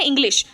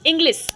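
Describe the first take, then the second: First: इंग्लिश said with a clear sh at the end; इंग्लिश ending in sh, said carefully and correctly; correct pronunciation. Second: इंग्लिश said with a plain s at the end, like Inglis; इंग्लिश ending in s instead of sh, as a learner's mistake; wrong pronunciation. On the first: Teacher demonstrates the correct way to say इंग्लिश, ending in sh. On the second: Teacher demonstrates the wrong way to say इंग्लिश, ending in s. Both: Shown as a demonstration. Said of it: "मैंने इंग्लिश बोला है ना कि इंग्लिश".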